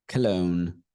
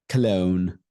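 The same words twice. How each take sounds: Both takes have the same delivery.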